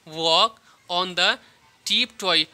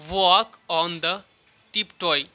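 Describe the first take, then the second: The two takes are said the same way.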